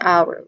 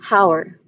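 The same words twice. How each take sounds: First: No h sound is heard at the start. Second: An h sound is heard at the start. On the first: The speaker calls it right. "Pronounce it as our" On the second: The speaker calls it wrong. "we do not pronounce that particular word as our"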